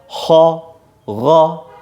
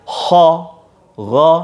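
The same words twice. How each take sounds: The two takes are said the same way.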